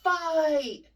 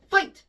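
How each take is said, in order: First: Drawn-out word, louder and higher; the sluggish take; slower fight. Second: Snapped out fast, much louder and higher; the snappy take; quick fight. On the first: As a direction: drag the word like a slow arm. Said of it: "So if I say". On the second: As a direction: hit it in an instant. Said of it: "all of your words need to be that quick". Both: Shown as a demonstration.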